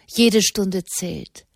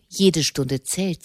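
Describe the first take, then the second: First: Slow, measured command. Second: Slow mock imitation of Mama's command; quoting Mama. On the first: A narrator's reading. Mother urging the monks to hurry, slow and firm. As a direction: Katharina sets the pace, every word weighed. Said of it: "befahl Katharina". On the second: Monk repeating Mama's order to his brother, lightly mimicked. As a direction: echo her words with slow weight. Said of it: "Mama wünscht".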